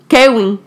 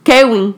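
First: The name is pronounced the Dominican way. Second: The same.

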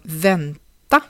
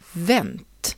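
First: The word keeps its final unstressed vowel. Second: The final vowel is dropped, with a short vowel.

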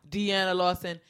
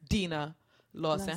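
First: The first name is said with three syllables. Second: The first name is said with two syllables. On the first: The speaker calls it wrong. "All my life, I mispronounced Deanna Lawson" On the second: The speaker calls it right. "It's Dina Lawson"

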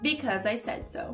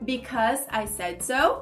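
First: The phrase is said at a faster pace. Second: The phrase is said at a slower pace. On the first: "Um pouquinho mais rápido" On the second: "Repeat with me pra praticar a pronúncia"

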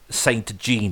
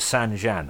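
First: It is pronounced in a casual, unpolished way. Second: It is pronounced in a refined, posh way. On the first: The speaker is unrefined. The speaker calls it wrong. "if you're a peasant" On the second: The speaker is cultured. The speaker calls it right. "I think you're supposed to pronounce it"

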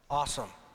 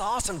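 First: It is said slowly and gravely, full of awe. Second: It is said in a casual, excited surfer voice. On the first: Something is truly awe-inspiring and fearsome. The speaker calls it right. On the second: Something is cool and fun. The speaker calls it wrong.

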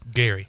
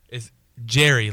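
First: The name starts with a hard G sound. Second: The name starts with a J sound. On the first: The speaker calls it wrong. "you're saying it's Gary" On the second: The speaker calls it right. "The G is pronounced as a J"

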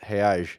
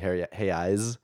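First: The word ends with an 'sh' sound. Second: The word ends with an 's' sound. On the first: "the Rio people, they do the sh-sh-sh-sh" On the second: "in like a Sao Paulo accent"

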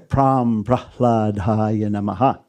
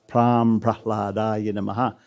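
Both takes have the same delivery.

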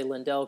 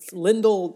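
First: The name does not sound like Kindle. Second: The name sounds like Kindle. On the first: The speaker calls it wrong. "I know I'll trip over that and I'll say Lindell quite a bit" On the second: The speaker calls it right. "Lindell like Kindle. So that's how it's pronounced"

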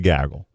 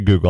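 First: The first vowel is a short 'a' sound. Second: The first vowel is a long 'oo' sound. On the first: "I say gaggle" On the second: "I don't say Google"

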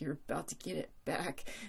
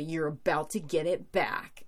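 First: It is said unsurely, with the voice cracking. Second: It is said confidently, like a badass.

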